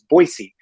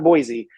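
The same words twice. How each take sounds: First: The middle consonant is a soft s sound. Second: The middle consonant is a buzzing z sound. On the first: The speaker calls it right. "Make sure you put the C in there" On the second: The speaker calls it wrong. "not Boise, but the Z E"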